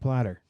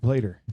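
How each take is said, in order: First: The first vowel sounds like the vowel in 'plat'. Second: The first vowel sounds like the vowel in 'plate'. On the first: The speaker calls it wrong. "not a platter. ... mispronounce that" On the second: The speaker calls it right. "He's a plater"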